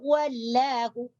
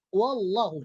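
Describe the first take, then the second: First: The l in Allah is pronounced light and thin. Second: The l in Allah is pronounced heavy and thick. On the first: The speaker calls it wrong. "Jadi jangan dibaca wallahu atau wallahu. Ini salah" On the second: The speaker calls it right. "Ini adalah bacaan tafkhim atau sifat tafkhim"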